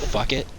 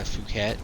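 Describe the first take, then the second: First: The word sounds like fuck it. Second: The word sounds like poo-ket.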